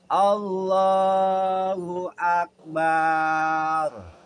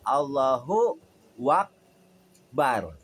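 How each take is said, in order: First: The final a in Akbar is stretched long. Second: A w sound with a vowel joins the two words. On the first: "Kemudian di belakangnya ditambahin pakai ba" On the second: "Allahu Akbar pakai waw"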